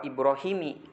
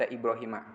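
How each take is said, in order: First: The name ends with an 'i' vowel. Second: The name ends with an 'a' vowel. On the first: The speaker calls it wrong. "Tidak bisa dibaca wa Ibrahimi" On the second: The speaker calls it right. "harus dibaca Ibrahima"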